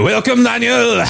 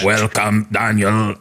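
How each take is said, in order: First: It is a plain French accent, not robotic. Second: It is a robotic French accent.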